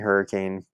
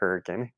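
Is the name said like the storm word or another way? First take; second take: storm word; another way. First: It is said like the common storm word. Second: It is said unlike the common storm word. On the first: The speaker is not from the town. The speaker calls it wrong. "it looks like Hurricane" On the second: The speaker is from the town. The speaker calls it right. "the town's pronounced Hurricane"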